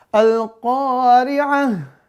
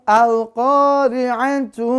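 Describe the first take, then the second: First: The word ends with a soft h sound. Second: The word ends with a full tu sound. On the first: The reading stops at this word. "mau diwakafkan ... taknya diganti menjadi ha" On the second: The reading continues into the next word. "Kalau dibaca misalnya disambung"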